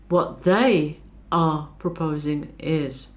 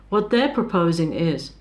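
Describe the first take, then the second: First: They are is said in full. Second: They are is contracted to they're. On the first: The speaker calls it right. "use the full form" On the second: The speaker calls it wrong. "these are contractions"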